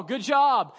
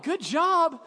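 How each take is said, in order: First: Said in the usual way. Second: Higher, disbelieving echo; incredulous. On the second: Retold or imitated. Pastor echoing the praise after a beating, incredulous. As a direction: repeat it like you can't believe it.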